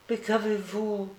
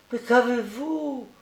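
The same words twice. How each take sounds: First: Put-on high, soft little-boy question; anxious child's question. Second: Put-on higher, drawn-out little-boy plea; insistent child's question. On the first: Sick boy asks why his friend cries, softly anxious. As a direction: ask gently in a high child's voice. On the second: Sick boy asks his weeping friend, insistent and pleading. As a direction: press the question slowly, pitched high. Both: A narrator's reading.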